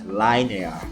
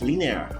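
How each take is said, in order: First: It is pronounced the way the spelling suggests. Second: It is pronounced the usual English way. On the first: This is how the spelling seems to want it said. "my opinion, it should be read read as linear" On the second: This is how English speakers actually say it. "But in English, it's linear"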